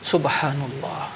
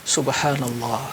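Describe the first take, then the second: The two takes are said the same way.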